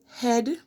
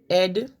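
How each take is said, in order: First: The word begins with an h sound. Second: The word begins without an h sound.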